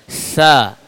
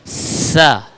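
First: The consonant is a soft th with flowing breath. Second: The consonant sounds like a plain hissing s. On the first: The speaker calls it right. "ujung bertemu ujung" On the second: The speaker calls it wrong. "kita baca dengan tidak mengeluarkan lidah sama sekali, tidak terlihat dari luar"

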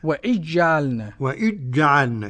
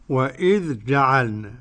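First: The dh merges into a doubled j sound. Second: The dh and j are pronounced as separate sounds. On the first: "صار بالإدغام وإجعلنا كده بالتعطيش كده" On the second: "بعدما كان حرفين ذال وجيم"

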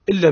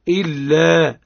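First: The final long vowel is not held two counts. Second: The final long vowel is held two counts. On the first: The speaker calls it wrong. "الكثير يقول" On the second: The speaker calls it right. "الصواب هو إلا مقداره ألف"

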